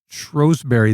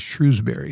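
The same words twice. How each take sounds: First: The first syllable has a long O vowel. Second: The first syllable has no long O vowel. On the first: This is how locals in that area say it. "they say it with a long O" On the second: This is how most other people say it. "most other people say Shrewsbury"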